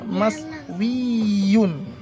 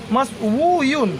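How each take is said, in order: First: The vowel after the w is i. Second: The vowel after the w is u. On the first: The speaker calls it right. "Harusnya mas wi dan ini ada iya-nya" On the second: The speaker calls it wrong. "tapi ini tidak boleh"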